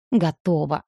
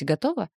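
First: Short sarcastic reply, falling at the end; grudging, sarcastic agreement. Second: Said in the usual way. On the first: A narrator's reading. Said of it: "саркастично процедила Ника".

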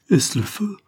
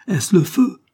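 First: High startled cry of fear; frightened maid asking about fire; terrified cry. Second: High, louder cry of alarm; frightened shout. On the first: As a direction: cry out in sudden terror from the window. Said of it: "dans un singulier excès d'une concevable terreur". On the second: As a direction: yell it out in fear. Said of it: "cria Wilson". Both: A narrator's reading.

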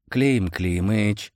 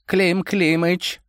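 First: Put-on slow, drawn-out old servant's call; Koshchei exclaiming. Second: Put-on high, slow old man call; Koshchei calling. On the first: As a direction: call out his master's name. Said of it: "воскликнул Кощей". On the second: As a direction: draw out the name gently. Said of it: "обратился внезапно к нему Кощей".

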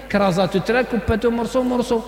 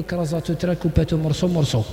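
First: A hint of a casual young man insisting it is Arabic; lightly voiced offhand slang speaker; mock dialect again. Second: Lightly voiced speaker of French-laced dialect, said offhand; mock the mixed slang gently; mock street dialect. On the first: Preacher imitating a man who calls dialect Arabic, lightly voiced. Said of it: "أنا نهضروا بالعربية احنا يا عادي". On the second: Preacher mocking the young man's mixed dialect, lightly voiced. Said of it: "وراهي اللغة العربية".

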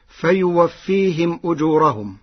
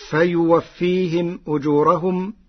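First: Said in the usual way. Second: فيوفيهم أجورهم with the Warsh reading; قراءة ورش. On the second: Shown as a demonstration. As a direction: read فيوفيهم أجورهم with ميم الجمع lengthened. (مد ميم الجمع في أجورهم) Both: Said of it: "قرأ ورش".

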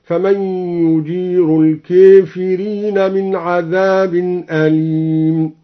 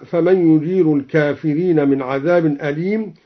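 First: الكافرين said with alif leaning to e, kefirin, slow chant; slow recitation bending الكافرين to kefirin; recited with imala. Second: Said in the usual way. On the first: Shown as a demonstration. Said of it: "أمال الكافرين هكذا". (ترتيل بإمالة الكافرين)

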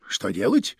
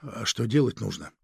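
First: "Что делать" asked back low, rising at the end; echo question. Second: Said in the usual way. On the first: A narrator's reading. Chief echoes the agent's question, "Что делать" low and rising. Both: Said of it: "переспросил фон Шпинна".

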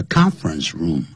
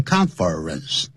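First: Said in the usual way. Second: "conference" mispronounced in three drawn-out syllables; wrong pronunciation. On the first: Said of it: "叫conference room". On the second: Shown as a demonstration. Teacher warns learners how not to say it, mispronounced "conference". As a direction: say "conference" the wrong way, as con-FER-ence. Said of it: "万不要念成conference".

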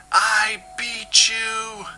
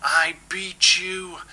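First: Very high, slow triumphant yell; louder bellow. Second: Slow, higher triumphant bellow. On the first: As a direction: scream the victory even bigger. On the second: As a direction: roar out the victory slowly. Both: Acted. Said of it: "bellowed at the oily gyre".

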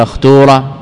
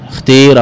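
First: اختورة with a long "oo" vowel; اختورة pronounced with a u-sound; damma form. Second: اختير with a long "ee" vowel; اختير pronounced with an i-sound; kasra form. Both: Shown as a demonstration. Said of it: "جواز الضم والكسر والإشمام".

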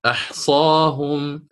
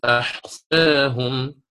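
First: Slow أحصاهم with a full open aa; open fath reading. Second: Slow أحصاهم, long aa tilted to "eh"; taqlil reading. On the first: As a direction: draw out أحصاهم as "ahsaahum". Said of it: "الفتح مقدم أداء". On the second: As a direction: draw out أحصاهم as "ahseehum". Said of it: "سيكون فيها التقليب بهذه الطريقة". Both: Shown as a demonstration.

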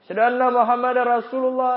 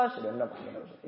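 First: Sung, muezzin's call. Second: A quick, soft whispered reply; whispered fast reply. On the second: Preacher whispers the listener's answer to the azan. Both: Shown as a demonstration. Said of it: "Itu metode pertama".

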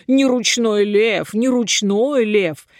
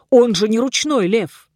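First: Slow, drawn-out teasing chant; taunting chant with stretched vowels; mocking singsong. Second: Indignant retort, pitched higher; acted exasperated exclamation. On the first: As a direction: mimic him in a slow singsong. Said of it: "начали нараспев повторять". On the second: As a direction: protest firmly, as a king rebuking fools. King indignantly rebukes the dwarfs. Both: A narrator's reading.

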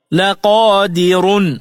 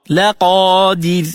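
First: لا قادر said slowly with the ra full and heavy, carried on; heavy ra when joined. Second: لا قادر said a bit slowly, stopping on a thin, light ra; light ra at a stop. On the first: Teacher showing لا قادر joined, heavy ra. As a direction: slowly read لا قادر with a thick ra. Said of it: "فخمت الراء". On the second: Teacher showing لا قادر at a stop, light ra. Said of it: "فترقق الراء". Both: Shown as a demonstration.

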